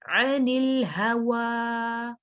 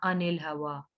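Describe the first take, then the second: First: अनिल हवा chanted slowly from a throaty ayn, last vowel held; correct ayn recitation. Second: अनिल हवा with a plain hamza instead of ayn, spoken quickly; mispronounced ayn. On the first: Teacher modelling the right reading, अनिल हवा with ayn, drawn out. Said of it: "आइन है". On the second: Teacher warning students off a mistake, अनिल with plain hamza. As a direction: say अनिल हवा unchanted, starting on a simple "a". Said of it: "इसको आपने ऐसे नहीं पढ़ना". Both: Shown as a demonstration.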